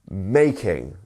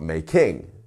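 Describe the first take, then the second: First: The stress is on the first syllable. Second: The stress is on the second syllable. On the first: The speaker calls it right. "You're going up on the first one and then back down on the second syllable" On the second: The speaker calls it wrong. "not making"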